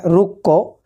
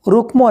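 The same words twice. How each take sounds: First: রুক্ক with doubled k and no m, rukko; correct pronunciation. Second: রুক্ম with the ম sounded, rukmo; wrong spelling-pronunciation. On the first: Teacher giving pupils the right রুক্ক, doubled k. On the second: Teacher showing pupils the wrong রুক্ম, m sounded. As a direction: say রুক্ম as written, m clearly voiced. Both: Shown as a demonstration. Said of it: "রুক্ম না".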